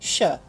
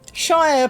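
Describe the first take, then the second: First: The word is shortened to a reduced form. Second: The word is said in full, as spelled. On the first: The speaker calls it right. "Shire becomes shire" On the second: The speaker calls it wrong. "Shire becomes shire"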